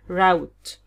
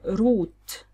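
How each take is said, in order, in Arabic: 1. الصوت يشبه الصوت في cow. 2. الصوت يشبه الصوت في food. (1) "اللي هي زي doubt كأن أو أو اللي هو الأو sound اللي هو موجود مثلا في cow" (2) "اللي هو زي food نفس الصوت اللي هو لونج"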